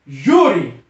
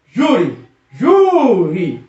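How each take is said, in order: First: Said in the usual way. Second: "júri" repeated, the last JÚ long and drawn out; stressed syllable stretched. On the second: Shown as a demonstration. Teacher showing the tonic syllable, "júri" with lengthened JÚ. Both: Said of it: "a sílaba tônica é no J U".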